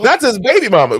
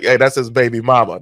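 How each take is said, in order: First: The stress falls on the word baby. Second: The stress falls on the word mama.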